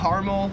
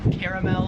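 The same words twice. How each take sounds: First: It is said with an American pronunciation. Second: It is said with an Australian pronunciation.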